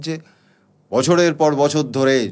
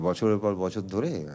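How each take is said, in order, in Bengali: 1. এটা আনুষ্ঠানিক, নাটকীয় ভঙ্গিতে আবৃত্তি করা হচ্ছে। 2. এটা সাধারণ কথোপকথনের মতো, সহজ ভঙ্গিতে বলা হচ্ছে। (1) "যেরকম লেখা আছে সেরকম বলা উচিত" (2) "খুব স্বাভাবিক, খুব ন্যাচারালি"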